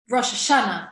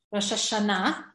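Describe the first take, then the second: First: "Rosh Hashanah" stressed on SHA, last syllable weak. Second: "Rosh Hashanah" stressed on the final NAH. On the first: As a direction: punch SHA in "Rosh Hashanah", drop the ending. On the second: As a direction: carry the weight to the end of "Rosh Hashanah". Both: Shown as a demonstration.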